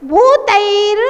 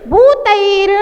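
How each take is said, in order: No difference in how they are said.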